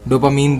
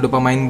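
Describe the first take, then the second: First: The last syllable is said with an 'een' sound. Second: The last syllable is said with an 'ine' sound. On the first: "डोपामीन बोल लो" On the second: "डोपामाइन बोल लो"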